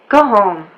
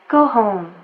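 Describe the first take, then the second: First: It is said in an annoyed, dismissive tone. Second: It is said in a gentle, concerned tone. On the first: The listener is unwelcome and should leave. "I want this person out of my house" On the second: The speaker worries about the listener's health. "I'm worried about this person's health"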